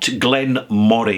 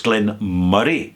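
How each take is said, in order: First: The middle vowel sounds like 'o' in orange. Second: The middle vowel sounds like 'u' in murmur. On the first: The speaker calls it wrong. "It's not Glenmorangie" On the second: The speaker calls it right. "why has it got an O and not a U?"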